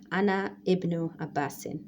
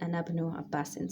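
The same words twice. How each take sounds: First: A glottal stop is pronounced before ibnu. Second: The words run on without a glottal stop. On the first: The speaker calls it wrong. "We don't say" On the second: The speaker calls it right. "So we say"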